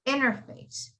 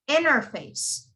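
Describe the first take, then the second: First: The T after the N is dropped entirely. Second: The same.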